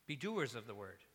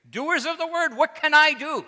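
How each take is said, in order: First: Said in the usual way. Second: Loud, much higher preacher's cry; imitated forceful preaching. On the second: Recalling a sermon he once heard, imitated loud preaching. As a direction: cry it out like a preacher challenging the pews. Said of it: "preached very plainly".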